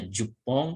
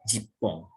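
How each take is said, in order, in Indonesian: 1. Vokal pertama adalah bunyi 'oo'. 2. Vokal pertama adalah bunyi 'ee'. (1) "Ini boleh dibaca jupong" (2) "atau jipong"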